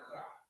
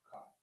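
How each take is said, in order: First: The throat sound is harsh, as if spitting. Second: The throat sound is plain and gentle. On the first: This is how Yiddish speakers say it. "like you're trying to spit it out" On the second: This is how the speaker's own community was taught to say it. "is just simply Chach"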